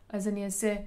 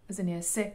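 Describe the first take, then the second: The two takes are said the same way.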